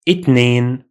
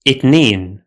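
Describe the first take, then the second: First: The word begins with a t sound, Egyptian-style. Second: The same.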